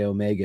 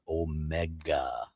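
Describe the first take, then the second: First: It is pronounced the American way. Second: It is pronounced the non-British, non-American way. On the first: "the Americans say Omega" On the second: "everybody else says Omega"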